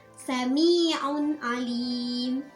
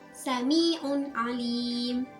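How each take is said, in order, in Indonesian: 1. Bunyi n dibaca jelas dan terpisah. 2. Bunyi n dibaca jelas dan terpisah.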